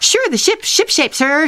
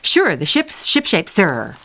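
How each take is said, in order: First: It is said at a fast pace. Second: It is said at a slower pace.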